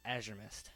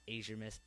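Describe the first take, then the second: First: AZURE with a short A, "AZH-er Mist"; corrected pronunciation. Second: AZURE with a long A, "AY-zher Mist"; mistaken pronunciation. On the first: Correcting own misreading, Azure said with short A. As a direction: say Azure with the A of cat. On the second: Correcting a misreading, Azure said wrongly with long A. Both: Shown as a demonstration. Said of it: "no, not Azure Mist".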